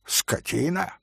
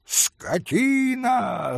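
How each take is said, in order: First: "Скотина" as a quiet rising question; echoed question. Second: High, long-drawn cry of outrage; yelled insult. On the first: Хозяин переспрашивает брошенное оскорбление. («Скотина» негромким встречным вопросом) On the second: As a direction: stretch it out high, falling at the end. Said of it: "заорал было пан Врублевский". (протяжный возмущённый крик) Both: A narrator's reading.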